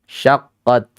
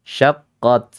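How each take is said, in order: The two takes are said the same way.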